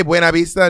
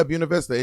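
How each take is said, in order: First: "Buena" said as BWAY-na, louder; Spanish pronunciation. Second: "Buena" said as BYOO-na; breezy "Buena Vista" starting with byoo; local pronunciation. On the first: Shown as a demonstration. Showing what a visitor might say, Spanish Buena Vista. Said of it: "if you say". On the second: Acted. Locals in Columbus replying, easy BYOO-na Vista. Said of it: "they'll just say".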